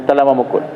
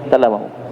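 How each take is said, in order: Both takes have the same delivery.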